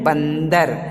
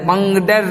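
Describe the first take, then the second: First: The nasal before d is an 'n' sound. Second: The nasal before d is an 'ng' sound. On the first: The speaker calls it right. "क्या बोलते हैं, बंदर, तो उसमें ना होती है" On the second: The speaker calls it wrong. "बंगडर नहीं बोलते हैं"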